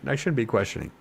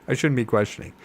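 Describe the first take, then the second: The two takes are said the same way.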